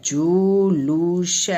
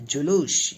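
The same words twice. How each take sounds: First: जुलूस very slow, each syllable held; जुलूस drawn out in three beats; sounded out slowly. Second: Said in the usual way. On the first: Shown as a demonstration. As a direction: stretch जुलूस into जु, लू, स. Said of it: "क्या होता है".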